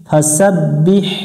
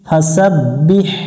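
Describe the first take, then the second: First: The word ends with an audible h sound. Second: The same.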